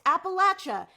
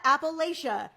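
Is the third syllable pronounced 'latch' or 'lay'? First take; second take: latch; lay. First: The third syllable sounds like 'latch'. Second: The third syllable sounds like 'lay'. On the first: The speaker calls it right. "it's pronounced Appalachia" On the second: The speaker calls it wrong. "not Appalachia"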